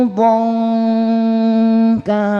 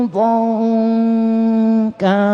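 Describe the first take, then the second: The two takes are said the same way.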